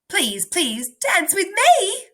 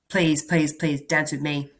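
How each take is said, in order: First: It is read with lively excitement. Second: It is read flatly, without excitement.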